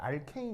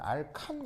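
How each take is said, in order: First: The second syllable has an 'ay' vowel sound. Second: The second syllable has a plain 'a' vowel sound. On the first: This is the current, American-style reading. "알케인 이렇게 읽으시면 되는데" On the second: This is the older reading from the colonial era. "옛날 이제 일제 시대 때는 알칸 이렇게 이제 발음을 했거든요"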